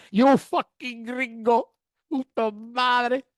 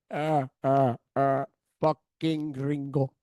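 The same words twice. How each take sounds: First: Slow, punchy mock insult; gangster taunt. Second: Lower, slow, chuckling taunt; mocking gangster laugh. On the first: Cartel man mocking the gringo, slow and punchy. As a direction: lean into each word. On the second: Cartel man laughing at the tourists, lower and slow. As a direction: sneer it out between laughs. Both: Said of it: "he starts laughing".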